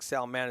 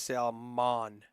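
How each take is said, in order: First: Salman ending in "man" as in the word man; flat-A pronunciation. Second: Salmon as sal-MAHN, long open second syllable; broad-A pronunciation. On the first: Commentator wondering how to say the name, flat-A pronunciation. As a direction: say Salman as SAL-MAN, loud. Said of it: "am I not saying Salman". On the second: Commentator trying the other version of the name, broad-A pronunciation. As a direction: stretch Salmon slowly into sal-MON. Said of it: "it's Salmon?". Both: Shown as a demonstration.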